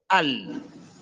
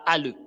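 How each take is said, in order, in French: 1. La consonne finale s'arrête brusquement sans relâchement. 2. La consonne finale est relâchée avec un son. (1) "mais c'est al" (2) "On ne dit pas al"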